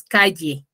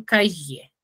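First: "calle" with the ll said clearly, the way it is said in Huaraz; teacher demonstrating the provincial way of saying "calle"; clear provincial pronunciation. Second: "calle" said slowly, with the ll sounded like a Y, the Lima way; teacher demonstrating how people in Lima say "calle"; Lima pronunciation. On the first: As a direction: say "calle" cleanly, sounding out the ll. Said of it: "pronunciamos claramente". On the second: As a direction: draw out "calle" and say the ll as a Y. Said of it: "como si fuese con la Y". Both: Shown as a demonstration.

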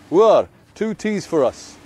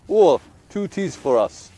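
First: Slow, raised call across the tea house; calling out an order. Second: Slow, raised call for the tea; calling out an order. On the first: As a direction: call the waiter for two teas, drawn out. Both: Retold or imitated. Old man calling to the tea server, slow raised call.

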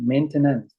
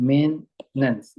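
First: "maintenance" read as spelled, main-te-nance, every syllable slow and full; the textbook reading of "maintenance", all syllables sounded; spelling pronunciation. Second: "maintenance" said as two syllables, men-nance, very slow; the way native speakers say "maintenance", middle swallowed. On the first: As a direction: say "maintenance" just as it is written, syllable by syllable. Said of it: "ถ้าอ่านตามรูปมันเลย". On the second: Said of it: "ฝรั่งจะออกแค่สองพยางค์". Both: Shown as a demonstration.

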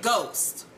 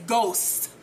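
First: Said in the usual way. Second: "Ghost" with the S drawn out at the end; slow, deliberate S on the end of "Ghost"; corrected pronunciation. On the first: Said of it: "fixes it and says Ghost". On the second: Retold or imitated. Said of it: "with an S on the end".

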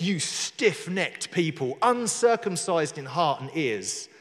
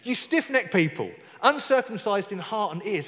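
First: Slow, deliberate scriptural rebuke; measured accusation, word by word; fighting talk. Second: Brisker, mildly combative rebuke; fighting talk. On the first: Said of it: "fighting talk". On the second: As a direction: throw the accusation out more readily. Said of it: "That's fighting talk, isn't it?". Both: Acted.

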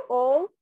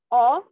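First: O said as a closed, rounded "oh", rising and loud. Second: O said as an open "aw", rising and loud. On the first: Teacher showing the other allowed sound, O as loud closed "oh". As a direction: say O as "ô", lips rounded. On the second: Teacher showing two allowed sounds, O as loud open "aw". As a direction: say O as "ó", mouth wide. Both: Shown as a demonstration. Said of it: "Tienes esos dos sonidos".

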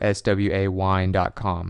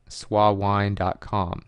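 First: "S W A" said letter by letter, then "wine"; spelled out. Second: "swawine" said as one slow word, "swa-wine"; read as a word. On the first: Offering another way to say the address, "S W A" spelled out. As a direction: spell out S, W, A before saying "wine". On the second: Giving listeners an email address, "swawine" pronounced as one word. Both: Shown as a demonstration. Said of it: "however you want to say it".

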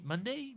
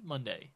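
First: "Monday" lifted high into a question; questioning tune. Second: "Monday" with a falling, final ending; settled answer. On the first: Host checking which day it is, "Monday" rising as a question. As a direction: say "Monday" with a rising, unsure ending. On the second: Host answering own query, "Monday" falling as a statement. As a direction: confirm "Monday" with the tune dropping. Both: Real, not acted.

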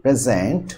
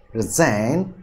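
First: প্রেজেন্ট as a noun, weight on its opening syllable; first-syllable stress. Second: প্রেজেন্ট as a verb, weight on its last syllable; second-syllable stress. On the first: Teacher giving an example for learners, first-syllable stress on প্রেজেন্ট. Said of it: "stress হবে প্রথম সিলেবলের উপর". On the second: Teacher giving a verb example, second-syllable stress on প্রেজেন্ট. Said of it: "stress হবে দ্বিতীয় সিলেবলের উপর". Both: Shown as a demonstration.

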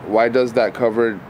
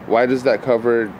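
Both takes have the same delivery.

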